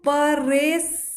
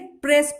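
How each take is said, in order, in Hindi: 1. प और र के बीच एक स्वर डाला जाता है। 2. प और र बिना किसी स्वर के जुड़े रहते हैं। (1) "तो इसको परेस ऐसे नहीं पढ़ेंगे" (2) "प्रेस पढ़ेंगे"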